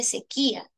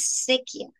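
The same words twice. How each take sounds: First: "sequía" in three syllables, the í split from the a; acento correcto con hiato. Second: "sequía" with SE hit and the final vowels run together; acento equivocado. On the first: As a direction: say "sequía" as se-QUÍ-a, stress on the í. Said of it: "se dice". (decir "sequía" con hiato, fuerza en QUÍ) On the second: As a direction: say "sequía" wrongly as SE-quia, stress on the first syllable. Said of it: "Tú no dices". (decir "sequía" mal, como séquia, sin hiato) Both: Shown as a demonstration.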